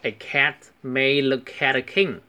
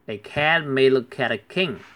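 First: It is said slowly and carefully. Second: It is said at normal conversational speed.

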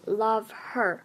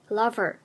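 First: The h in her is clearly pronounced. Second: The h in her is dropped entirely. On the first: The speaker calls it wrong. "所以我们不读love her" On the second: The speaker calls it right. "也就是把辅音给省略了，直接读作lover"

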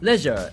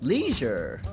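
First: It is said with an Australian accent. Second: It is said with an American accent.

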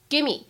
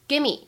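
First: The v sound is dropped and words merge. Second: The same.

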